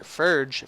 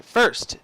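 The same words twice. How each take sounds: First: "Ferge", a slip with a soft j-like ending; mispronounced first. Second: Said in the usual way. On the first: Real, not acted. Narrator fumbling the lounge line, "first" slipping out as "Ferge". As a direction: stumble on the word as "Ferge". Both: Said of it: "I don't know why I said Ferge".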